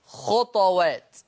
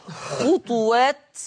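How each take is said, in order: First: "خطوات" with vowelless, echoed ط; Warsh pronunciation. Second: "خطوات" with a u vowel on the ط; three syllables in "خطوات", khu-TU-waat; Hafs pronunciation. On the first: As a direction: say "خطوات" slowly as khut-waat, bouncing the ط. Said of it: "يقرأ هذا اللفظ بسكون الطاء". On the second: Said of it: "خطوات بضم الطاء على حفص". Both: Shown as a demonstration.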